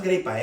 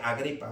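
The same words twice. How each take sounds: First: "gripa" without the opening A; the name clipped to "gripa", no first vowel; mispronounced name. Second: "Agripa" with its opening A sounded; corrected name. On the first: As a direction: say "gripa", starting straight on GRI. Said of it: "No es gripa". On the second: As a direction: say "Agripa" in full, A-GRI-pa. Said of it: "No es gripa, eh, Agripa". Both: Shown as a demonstration.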